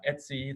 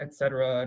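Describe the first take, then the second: First: It is said as a short, two-syllable form. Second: It is said as a long, many-syllable form. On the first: The speaker is a longtime Unix user. The speaker calls it right. "pronounce it the most efficient way possible" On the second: The speaker is not a longtime Unix user. The speaker calls it wrong. "not the way that Muggles pronounce it, like et cetera. Too many syllables there"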